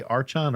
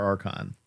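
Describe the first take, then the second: First: "Archon" said ARCH-on, ch as in church; Archon with a CH sound. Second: "Archon" said ARK-on, ch as hard k; Archon with a K sound. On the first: Host unsure of the gun's name, "Archon" as ARCH-on. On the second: Host unsure of the gun's name, "Archon" as ARK-on. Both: Shown as a demonstration. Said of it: "how do they pronounce it".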